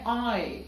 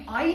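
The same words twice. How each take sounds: First: آئی as one gliding "ae" diphthong; correct English I. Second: آئی in two parts, "aa-ee"; local-accent letter I, split into two vowels; wrong Urdu-style I. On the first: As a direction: say آئی in one syllable, easing off the end. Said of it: "بلکہ یہ ہے آئی". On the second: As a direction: say آئی with a full "ee" at the end. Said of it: "یہ آئی نہیں ہے". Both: Shown as a demonstration.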